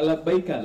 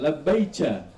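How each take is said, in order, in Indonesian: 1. Suku kata terakhir dimulai dengan bunyi k. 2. Suku kata terakhir dimulai dengan bunyi ch. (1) "Dia nggak labbaika" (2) "Dialek dia kaf itu kayak kayak Persi juga ya, ca gitu"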